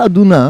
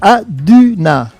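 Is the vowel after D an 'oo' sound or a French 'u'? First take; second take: oo; French u. First: The vowel after D sounds like 'oo'. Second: The vowel after D is a French 'u'. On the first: The speaker calls it wrong. "c'est pas Aduna" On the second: The speaker calls it right. "c'est Aduna"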